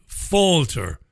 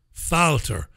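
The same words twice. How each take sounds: First: "Falter" with an aw vowel, like FAWL-ter; first pronunciation guess. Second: "Falter" with a short a, as in cat; second pronunciation guess. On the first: Host unsure of the chairman's name, trying "Falter" as FAWL-ter. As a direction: say "Falter" to rhyme with alter. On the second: Host offering another guess at the chairman's name, "Falter" as FAL-ter. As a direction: say "Falter" as FAL-ter, first vowel like pal. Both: Shown as a demonstration. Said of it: "I don't know how he pronounces it".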